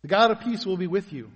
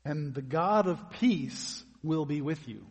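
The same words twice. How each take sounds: First: Louder, stress on God, firm fall; emphatic statement. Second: Slow, weighty, every word set down; emphatic. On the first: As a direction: proclaim it as a sure promise. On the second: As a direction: lay it down as a solemn promise. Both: Shown as a demonstration.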